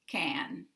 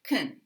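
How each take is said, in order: First: The word has a full, clear 'a' vowel. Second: The word has a short, weak, reduced vowel. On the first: The word is said on its own. "this pronunciation with the full vowel a" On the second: The word is an unstressed modal in a sentence. "unstressed, will sound like kun or ken"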